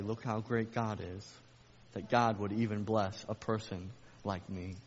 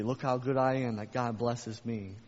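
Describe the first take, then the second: First: Humble praise. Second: Mock the proud believer, puffed up; prideful boast. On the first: Retold or imitated. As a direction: say it in humble wonder. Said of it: "Or you can say". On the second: Preacher mimicking a proud believer, mild smug boast. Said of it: "you can walk out in pride".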